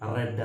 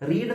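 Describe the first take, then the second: First: The vowel is a short 'e' sound. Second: The vowel is a long 'ee' sound. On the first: It is the past tense form. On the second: It is the present tense form.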